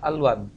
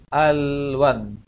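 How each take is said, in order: First: The word is said too quickly, sounds rushed together. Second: The word is said slowly, the middle sound held. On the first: The speaker calls it wrong. "Jangan terlalu cepat nanti bacanya. Jangan" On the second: The speaker calls it right.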